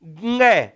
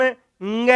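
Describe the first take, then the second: First: ङ said short and crisp as a nasal ng, g through the nose; nasal ng sound. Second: ङ drawn out slowly as a nasal ng, like g through the nose; nasal ng sound. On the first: Teacher repeating ङ for students, short and clean nasal. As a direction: clip ङ quickly as a nasal ng from the back of the throat. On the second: Teacher slowly demonstrating ङ for students, drawn-out nasal. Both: Shown as a demonstration. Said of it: "ग की ध्वनि लेकिन नाक में".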